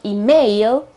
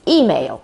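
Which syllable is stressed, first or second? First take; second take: second; first. First: The stress is on the second syllable. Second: The stress is on the first syllable. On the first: The speaker calls it wrong. "It's not email, okay, with the accent on the A" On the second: The speaker calls it right. "The accent is on the E at the very beginning"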